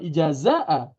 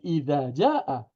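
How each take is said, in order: First: The j sound comes before the z sound. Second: The z sound comes before the j sound. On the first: The speaker calls it wrong. "bukan ijazah" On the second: The speaker calls it right. "tapi idza jaa"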